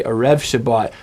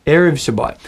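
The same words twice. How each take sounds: First: Erev with REV stressed, E reduced; stress on last syllable. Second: Erev punched on E, rev light; stress on first syllable. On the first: Teacher showing a common error, Erev stressed on REV. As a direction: put the accent late in Erev. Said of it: "It's a common error". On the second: Teacher modelling for practice, Erev stressed on first syllable. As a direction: land hard on the start of Erev. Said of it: "you can just practice saying that". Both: Shown as a demonstration.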